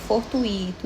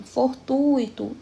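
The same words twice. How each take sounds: First: "fortuito" said for-tu-I-to, U and I split; wrong stress on I. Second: "fortuito" slow, long strong U in for-TUI-to; stress on U. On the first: Teacher shows class the mistake, "fortuito" stressed on the I. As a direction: break the diphthong in "fortuito", leaning on the I. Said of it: "não está certo". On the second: Teacher models correct word for class, "fortuito" stressed on TU. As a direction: stretch the U of "fortuito", I gliding after it. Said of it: "especialmente no u". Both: Shown as a demonstration.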